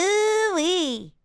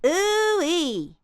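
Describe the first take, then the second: First: High, too-nasal cartoon ooh-wee; little baby voice. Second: High ooh-wee, resonance at the cheekbones; less nasal. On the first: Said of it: "little baby voice". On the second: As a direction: bring the resonance down out of the nose. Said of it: "come back down". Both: Shown as a demonstration.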